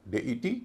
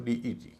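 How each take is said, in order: First: "डेईटी" as day-i-tee; day opening. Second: "डीईटी" as dee-i-tee; dee opening. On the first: Teacher modelling deity's first form, ay vowel. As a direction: start "डेईटी" with ए, then short इ. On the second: Teacher modelling deity's second form, ee vowel. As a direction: start "डीईटी" with long ई, then short इ. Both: Shown as a demonstration. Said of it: "तो इसे बोलेंगे".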